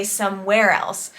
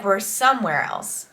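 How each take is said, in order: First: "somewhere" stressed on its second syllable, WHERE; shifted accent in "somewhere", landing on "where". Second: "somewhere" stressed on its first syllable, SOME; natural "somewhere", weight on "some". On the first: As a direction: say some-WHERE else. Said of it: "so she has to say". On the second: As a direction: say SOME-where else, the natural way. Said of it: "emphasis is on the word some". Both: Shown as a demonstration.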